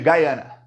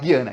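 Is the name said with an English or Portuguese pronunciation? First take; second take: English; Portuguese. First: The name is said with an English pronunciation. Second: The name is said with a Portuguese pronunciation. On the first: This is how the country's own people say it. "eles chamam de Guyana, porque eles falam inglês" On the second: This is the local Brazilian way of saying it. "então vou falar Guiana aqui"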